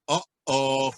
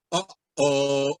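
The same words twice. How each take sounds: The two takes are said the same way.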